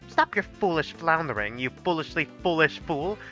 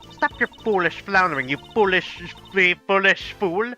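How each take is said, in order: First: It is voiced in another character's voice. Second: It is voiced in Virgil's voice.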